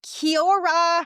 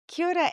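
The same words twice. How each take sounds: First: It is said with an American accent. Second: It is said with a New Zealand accent.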